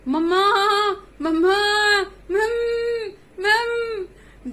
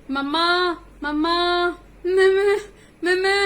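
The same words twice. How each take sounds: First: Loud, higher cries of mamma, near crying; calling out. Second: Loud, higher bleating mamma calls; like goats bleat. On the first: Kids inside the bear's belly calling their mother, loud cries. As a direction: shout for mamma from far inside. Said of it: "वहीं से चुन्नू मुन्नू ने आवाज दी". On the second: Goat kids inside the belly bleating for mamma. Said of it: "जैसे बकरे बोलते हैं उस तरीके में". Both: Acted.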